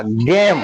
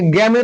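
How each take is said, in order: First: गेम में लंबा ए, अंत म पर; गेम को एक अक्षर में, म पर बंद; अंत का ई चुप. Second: गेम के अंत में ए जोड़कर गेमे; गेम को दो अक्षरों में, गे-मे; अंत में ई का उच्चारण. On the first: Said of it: "ई का उच्चारण नहीं होगा". (गेम का आख़िरी ई बिना बोले) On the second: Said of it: "ऐसे गेम में तो नहीं पढ़ रहे". (गेम का आख़िरी स्वर बोलकर, गेमे) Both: Shown as a demonstration.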